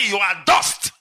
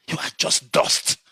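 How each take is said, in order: First: Said in the usual way. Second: Hushed scorn. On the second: Real, not acted. Scorning the egoist.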